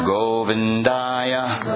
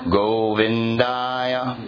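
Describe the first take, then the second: Both takes have the same delivery.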